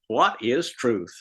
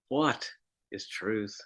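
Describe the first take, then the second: First: It is said in a sarcastic, mocking tone. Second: It is said in a despairing, hopeless tone. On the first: The question of truth is ridiculed. "He may have said it quite sarcastically" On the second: Finding the truth seems hopeless. "Or maybe despairingly"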